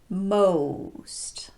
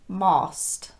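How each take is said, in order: First: The vowel starts rounded and glides to oo. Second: The vowel sounds like an open aw. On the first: The speaker calls it right. "start with the lips rounded like the letter O itself, and then transition to oo" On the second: The speaker calls it wrong. "So a word like most will sound like most"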